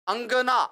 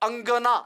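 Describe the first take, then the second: Both takes have the same delivery.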